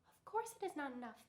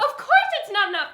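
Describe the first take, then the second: First: It is said quietly. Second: It is said at full loudness.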